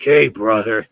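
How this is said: It is said in a mean way.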